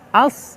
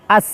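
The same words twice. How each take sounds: First: The s sound is heavy and emphatic. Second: The s sound is light and plain. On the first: "lagi-lagi huruf shad terasa" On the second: "awas terkecoh menjadi pakai sin"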